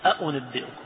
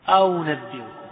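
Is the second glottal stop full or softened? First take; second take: full; softened. First: The second glottal stop is fully pronounced. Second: The second glottal stop is softened toward a vowel. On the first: "ما يقول أأنبئكم" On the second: "بعضهم يسهل الثانية"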